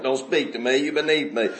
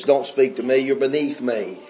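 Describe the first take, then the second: First: Low, soft mock snobbery; a hint of haughty disdain, hushed; snooty sourpuss, quieter. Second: Low, cold mock snobbery; snooty sourpuss. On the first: Preacher repeating the snob's words, quieter mock disdain. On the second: Preacher mocking rich townsfolk, lightly snooty and cold. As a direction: imitate a stuck-up rich woman, lightly. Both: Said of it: "Bunch of sourpusses".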